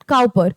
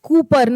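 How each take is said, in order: First: The first vowel sounds like in 'cow'. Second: The first vowel sounds like in 'coop'. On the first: The speaker calls it wrong. "Not काउपर" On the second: The speaker calls it right. "ये क्या pronounce किया जाता है? कूपर"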